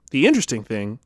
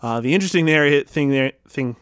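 First: Said in the usual way. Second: Tripping over the words interesting thing; stumbling, the mouth won't cooperate; mouth not working. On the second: Real, not acted. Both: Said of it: "my mouth doesn't work".

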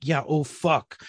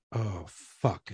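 First: Retold pointed echo of her words; understated mock agreement; sarcastic echo. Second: Low, soft dawning regret; retold wife quietly realising the mistake; sheepish realisation. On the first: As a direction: throw it back at them drily. Husband echoes her pointedly. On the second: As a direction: let it sink in, low and soft.

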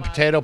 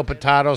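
First: Potato with an AY in the middle, puh-TAY-toh; usual pronunciation. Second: Potato with an AH in the middle, puh-TAH-toh; joke alternate pronunciation. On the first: Host riffing on word sounds, potato said puh-TAY-toh. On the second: Host riffing on word sounds, potato said puh-TAH-toh. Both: Shown as a demonstration. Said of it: "Tomato, tomato".

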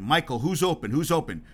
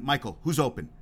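First: Retold demand, pressing on open. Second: Said in the usual way. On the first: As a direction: push for the answer, a bit louder. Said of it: "Jackson demanded of Jordan". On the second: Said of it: "Jackson asked Jordan".

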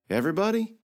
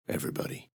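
First: High disbelieving question; can't believe it, ask high; shocked question. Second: Whispered, much softer, flat confirmation; grim whisper. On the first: Girl asking if the whole city died, stunned. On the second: Knight confirming the city's death, whispered. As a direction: breathe the word out, no voice. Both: Acted.

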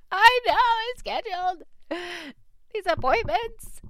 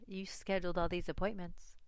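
First: High, loud, laughing self-mockery. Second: Said in the usual way. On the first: Real, not acted. Admitting to her husband she booked the visits, laughing. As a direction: laugh at yourself, voice jumping up high. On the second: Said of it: "he's probably thinking".

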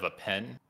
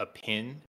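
First: Said in the usual way. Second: "pin" as a Kiwi says pen, short i; Kiwi vowel. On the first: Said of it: "instead of a pen". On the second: Shown as a demonstration. Explaining Kiwi vowels to Australian, "pin" with short i. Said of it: "different in the vowel pronunciation".

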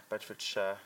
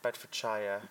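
First: Said in the usual way. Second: "Bedfordshire" ending in a full SHIRE, rhyming with fire. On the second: Shown as a demonstration. Host testing how "Bedfordshire" is said, ending rhymed with fire. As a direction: say "Bedfordshire" with the last syllable as SHY-er. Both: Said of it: "Or is it Shire?".

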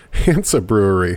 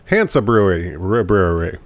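First: Said in the usual way. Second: Tongue slipping on words. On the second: Real, not acted. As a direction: stumble like a tipsy host. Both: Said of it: "What is wrong with me?".

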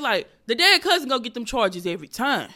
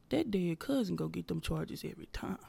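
First: Louder, punched delivery of the punchline; belted the second time, full stage voice. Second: Whispered the first time, like a confession; whispered punchline. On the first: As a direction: sell the joke out loud to the room. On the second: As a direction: let the joke slip out as a secret. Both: Retold or imitated. Retelling the joke on stage.

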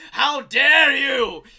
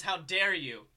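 First: Huge, drawn-out outraged villain scream. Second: Said in the usual way. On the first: Acted. Titan raging at his own son, theatrical scream. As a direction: bellow it slowly, much higher and louder. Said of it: "as he screams". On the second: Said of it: "And as he screams".

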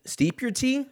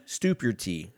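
First: "steep your tea" with a long ee vowel, high; right word. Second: "stoop your tea" with an oo vowel instead of ee; slip of the tongue. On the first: Correcting himself on tea words, "steep" said right. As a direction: say "steep" with a clear ee. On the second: Tripping over tea words, saying "stoop" wrong. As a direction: say "stoop" with a long oo by mistake. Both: Shown as a demonstration. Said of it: "No, a stoop is something they have in".

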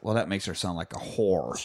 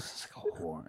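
First: Said in the usual way. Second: A hushed repeat to savor the joke; quiet whispered aside; whispered echo. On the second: Retold or imitated. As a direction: whisper the line back, far softer. Echoing grandma's line.

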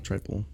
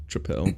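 First: Said in the usual way. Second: "tripel" with a short i and a clear PEL ending; alternate pronunciation. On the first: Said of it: "It's gotta be tri-, tripel, triple". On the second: Shown as a demonstration. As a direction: say "tripel" as trih-PELL. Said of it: "It's gotta be tri-, tripel".

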